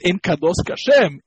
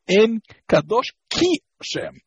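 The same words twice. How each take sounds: First: En Kadosh Hashem said as "ka-Shem"; Ka with patach. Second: Ki Hashem with an i after the K; Ki with chirik. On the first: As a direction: put an a after the k before Hashem. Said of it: "you say Ka Hashem". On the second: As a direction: stress the "Ki" in En Kadosh Ki Hashem. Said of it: "then it should be not". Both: Shown as a demonstration.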